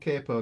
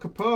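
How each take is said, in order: First: It is pronounced with an American accent. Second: It is pronounced with a British accent. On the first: The speaker calls it wrong. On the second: The speaker calls it right.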